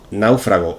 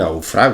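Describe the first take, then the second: First: The stress is on the first syllable. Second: The stress is on the second syllable. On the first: The speaker calls it right. "Náufrago es una palabra esdrújula y como tal debemos tildarla" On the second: The speaker calls it wrong. "en realidad deberíamos decir hallaron a un naufrago"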